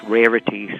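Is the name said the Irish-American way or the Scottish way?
Irish-American. The name is said with an Irish-American pronunciation. This is how people in Ireland or the US often say it. "Would be pronounced Rarity sometimes in Ireland or here"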